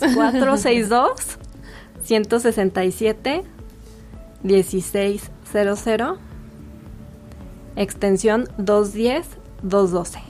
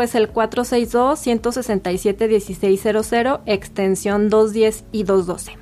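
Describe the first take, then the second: First: The number is said at a slow pace. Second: The number is said at a quick pace.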